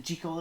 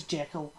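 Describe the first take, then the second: First: "Jekyll" with a long ee, JEE-kul; intended pronunciation. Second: "Jekyll" with a short e, JECK-ul; spelling pronunciation. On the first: Host doubting the intended way, "Jekyll" as JEE-kul. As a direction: say "Jekyll" to rhyme with treacle. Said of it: "I can never pronounce it Jekyll". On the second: Host reading it as spelt, "Jekyll" as JECK-ul. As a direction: say "Jekyll" to rhyme with heckle. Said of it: "it says Jekyll". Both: Shown as a demonstration.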